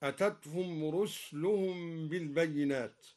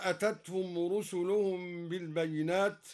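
First: رسلهم as rusluhum with no vowel on the s; silent sin reading. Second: Said in the usual way. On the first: Shown as a demonstration. Reciter showing the variant, رسلهم said as rusluhum. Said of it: "بإسكان السين وهي لغة هكذا". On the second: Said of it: "قرأ الدوري بإسكان السين".

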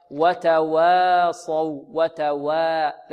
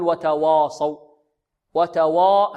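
First: "وتواصوا" with a light, thin waw, long vowels. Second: "وتواصوا" with a thick, dark waw; wrongly heavy waw. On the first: Teacher models the waw for students, light waw in "وتواصوا". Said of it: "مرققة هكذا". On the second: Teacher shows students the mistake, heavy waw in "وتواصوا". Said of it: "هذا خطأ". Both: Shown as a demonstration.

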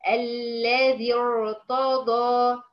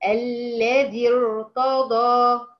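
First: الذي ارتضى recited very slowly with the hamza dropped; recitation demo. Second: الذي ارتضى recited very slowly, joined with no hamza before the ر; recitation demo. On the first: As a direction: draw out الذي ارتضى, linking directly to the ر. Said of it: "بدأت بالذي ارتضى له". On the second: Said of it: "زي مثلًا نقول إيه؟". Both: Shown as a demonstration.

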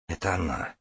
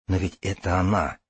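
First: Hushed, softer voice of the heart; quiet inner voice. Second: Said in the usual way. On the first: Acted. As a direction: say it softly, as the heart speaking. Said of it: "говорит сердце".

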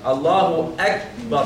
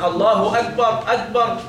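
First: Slow "الله أكبر" with a clear k sound; correct kaf. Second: Higher demo of "أكبر" as "agbar"; kaf turned gim. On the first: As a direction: model "أكبر" with a true ك, not a g. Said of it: "فالصح تقول إيه؟". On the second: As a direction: show the mistake "أكبر" with a hard g replacing the ك. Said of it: "ممكن ننطقها جيم؟". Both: Shown as a demonstration.

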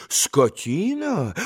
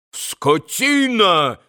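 First: Slow, restrained questioning retort; indignant echo. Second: Slow, high-pitched outraged cry; bellowed insult. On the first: Landlord repeats Vrublevsky's insult, slow indignant question. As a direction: throw the word back quietly, drawn out. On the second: Vrublevsky insults the landlord, drawn-out outraged cry. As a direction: draw the insult out, higher, as an acted yell. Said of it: "заорал было пан Врублевский". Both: A narrator's reading.

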